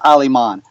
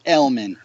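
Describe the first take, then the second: First: The surname is said the German and Spanish way. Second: The surname rhymes with 'beer man'. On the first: This is the family's true pronunciation. "That's how you say German and Spanish, all right? it's pronounced Aliman" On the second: This is the simpler form given to everyone. "L-man, beer man, okay? A lot easier"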